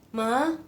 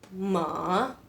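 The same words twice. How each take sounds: First: The pitch rises steadily from start to end. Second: The pitch falls first and then rises. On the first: "nada kedua ini seperti manggil mama kamu ... nadanya ke atas" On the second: "nada ketiga ini turun terus ke atas"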